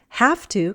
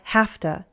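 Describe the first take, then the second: First: Both words are said fully and separately. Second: The words are reduced and run together.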